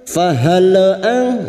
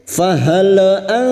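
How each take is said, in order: The two takes are said the same way.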